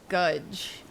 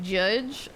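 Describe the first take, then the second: First: The word starts with a hard G sound. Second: The word starts with a soft G sound.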